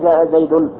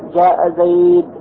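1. ينتهي الاسم بصوت -un في آخره. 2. ينتهي الاسم بلا تنوين، دون صوت -un. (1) "لا تقول جاء زيد خطأ" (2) "وإنما تقول عند الوقف جاء زيد، هكذا تحذف التنوين"

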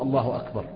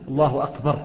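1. الكلمة الأخيرة تنتهي بحركة. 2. تنتهي الكلمة الأخيرة بحرف ساكن. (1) "معرضا" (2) "جزما الله أكبر يقف يكون مجزوما بالسكون"

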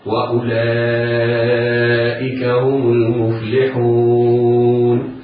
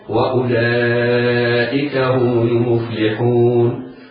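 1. تُمَدّ الحركة الطويلة الأخيرة مدًّا متوسطًا. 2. تُمَدّ الحركة الطويلة الأخيرة مدًّا قصيرًا فقط. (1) "وبمقدار أربع حركات هكذا" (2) "تمد بمقدار حركتين هكذا"

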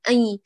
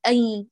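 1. صوت الياء يُخرج من الأنف. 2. صوت الياء يُخرج من الأنف.

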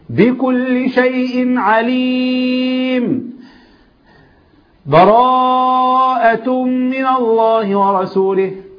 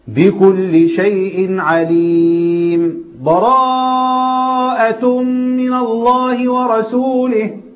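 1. قطع مع أخذ النفس. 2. سكتة يسيرة بدون تنفس. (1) "القطع ... قطع وخد نفسه" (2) "سكتة ما خدتش فيها نفس"

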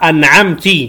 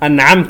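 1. التاءُ عليها حركةُ i. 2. التاءُ عليها حركةٌ غير u أو i.

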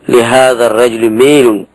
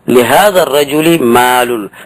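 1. الحركة الأخيرة تميل نحو صوت 'e'. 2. الحركة الأخيرة هي 'a' مفتوحة عادية.

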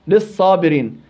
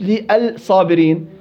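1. تندمج L في صوت S مضعّف. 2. يُنطق صوت L منفصلاً قبل S. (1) "واللام في الصابرين مضغمه في الصاد" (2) "مش"

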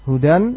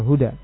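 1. Kata ini berakhir dengan bunyi n. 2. Kata ini berakhir dengan vokal biasa. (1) "ditanwin dengan tanwin" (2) "ataupun tanpa tanwin"

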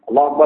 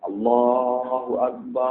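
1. Frasa ini diucapkan dengan cepat. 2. Frasa ini diucapkan dengan lambat dan vokalnya panjang. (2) "tartil adalah lambat"

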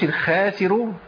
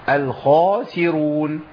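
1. صوت kh خفيف ورقيق. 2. صوت kh ثقيل وممتلئ. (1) "ما اقولش الخاسرون عشان بعديها تيجي مرققة" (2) "الخاء وجملة السين"

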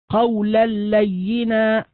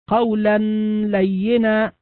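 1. النون تذوب في صوت اللام المشددة. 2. يُسمع أثر غنة للنون قبل اللام. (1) "لا أثر للنون التي في التنوين إطلاقا" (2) "هذا إظهار مع الغنة"

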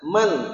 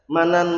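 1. Kata ini berakhir dengan bunyi n saja. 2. Kata ini berakhir dengan bunyi tambahan an. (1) "Enggak pernah. Man" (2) "pernah enggak dibaca"

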